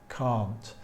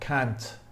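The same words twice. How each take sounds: First: It is said in a British accent. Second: It is said in an American accent. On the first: "British pronunciation, this is this word is pronounced can't" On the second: "In American English, the pronunciation is slightly different... It's more like"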